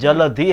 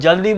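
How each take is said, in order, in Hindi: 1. इसे तीन अक्षरों में बोला जाता है, ja-la-dhi। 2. इसे दो अक्षरों में बोला जाता है, jal-di। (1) "जलधि है" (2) "वो जल्दी बोलते हैं, जल्दी वर्ड्स है ही नहीं"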